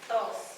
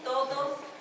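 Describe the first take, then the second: First: The word is cut short. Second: The word is said in full.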